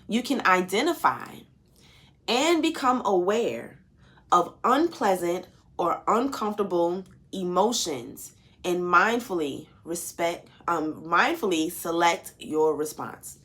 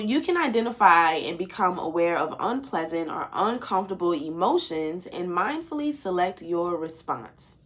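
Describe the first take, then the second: First: It is read slowly. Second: It is read at a normal pace.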